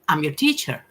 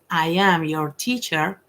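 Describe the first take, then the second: First: I and am are joined into one syllable. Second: I and am are said as two separate words. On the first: The speaker calls it wrong. "that's not the correct way" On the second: The speaker calls it right. "instead of saying I am your teacher"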